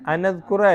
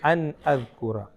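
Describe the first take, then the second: First: The n runs straight into the following vowel. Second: The n is held, then a clear glottal stop. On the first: The speaker calls it wrong. "അല്ല" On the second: The speaker calls it right. "ആ നൂനിന്റെ സുക്കൂനും വ്യക്തമാക്കണം, ഹംസയെ വ്യക്തമാക്കണം"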